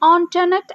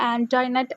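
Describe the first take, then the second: First: The first syllable has an 'on' vowel. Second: The first syllable has an 'an' vowel. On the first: The speaker calls it right. "ഇത് ഓൺടോനെറ്റ് എന്നാണ് actually pronounce ചെയ്യുക" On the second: The speaker calls it wrong. "നമ്മൾ വായിക്കുമ്പോൾ നമ്മൾ ആൻറ്റോനെറ്റ് എന്നൊക്കെ നമ്മൾ pronounce ചെയ്യും"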